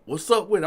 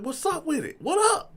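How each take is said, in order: First: Rival's challenge, pitched up a little; mock confrontational greeting; imitated challenge. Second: Very high-pitched retort to a rival; hyped-up squaring-off reply; acted comeback challenge. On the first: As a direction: call him out as the rival. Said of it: "and he like". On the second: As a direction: throw the challenge back, voice leaping up. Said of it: "I'm like".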